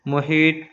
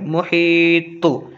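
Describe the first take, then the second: First: The final consonant stops flat without bounce. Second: The final consonant ends with an echoing bounce. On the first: The speaker calls it wrong. "ऐसे नहीं बोलेंगे" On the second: The speaker calls it right. "एकदम थोड़ा आवाज़ तो ईद टक्कर खाएंगे क्योंकि हुर्फ कलकला है"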